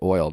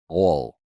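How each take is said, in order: First: It is said with a general American vowel. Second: It is said with a swallowed Southern vowel. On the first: "they don't say oil" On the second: "like they swallow it"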